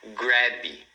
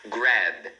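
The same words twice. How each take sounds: First: An extra i vowel follows the final b. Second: The word ends cleanly on the b sound. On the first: The speaker calls it wrong. "você não deve falar grab, tá vendo? Não colocar esse i" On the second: The speaker calls it right. "você pronuncia assim, ó"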